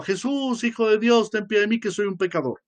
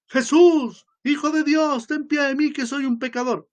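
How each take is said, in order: First: First cry, less intense. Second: High, loud desperate cry for mercy; crying out louder. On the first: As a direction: call out to Jesus, holding back a little. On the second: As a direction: call out to Jesus, pleading and louder. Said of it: "siguió gritando más fuerte". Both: Retold or imitated.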